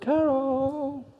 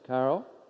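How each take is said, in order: First: The name is called out in a searching way. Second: The name is said in a harsh, threatening way. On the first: The speaker is trying to find her. "I'm looking for her" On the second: The speaker is angry and coming for her. "put on the whole armour of God, I'm after you"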